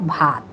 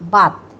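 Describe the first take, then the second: First: The first consonant is an aspirated bh. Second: The first consonant is a plain, unaspirated b. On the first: This is the standard form, not the local one. The speaker calls it wrong. "Not ভাত" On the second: This is how the local dialect says it. The speaker calls it right. "ভাতকে আমরা বাত বলি"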